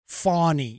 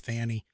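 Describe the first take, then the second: First: The first vowel is an 'aw' sound. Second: The first vowel is a short 'a' sound. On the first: "I'm supposed to say it right" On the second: "Nah, it's Fanny"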